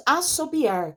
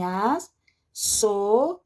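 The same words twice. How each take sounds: First: Said in the usual way. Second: ASSOBIAR very slowly as as, so, bi, ar; syllable by syllable. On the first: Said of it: "que vai ficar separado assim". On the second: Shown as a demonstration. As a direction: break "assobiar" into syllables with long pauses. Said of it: "vai ficar separado assim".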